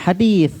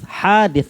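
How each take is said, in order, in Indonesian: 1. Vokal pertama pendek. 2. Vokal pertama panjang. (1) "Bukan hadis" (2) "haknya panjang"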